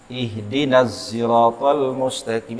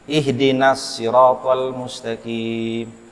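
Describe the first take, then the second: First: The word sirat begins with a z sound. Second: The word sirat begins with an s sound. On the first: "Ada pula yang membaca shad menjadi zai" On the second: "Ada orang membaca Fatihah shad menjadi sin"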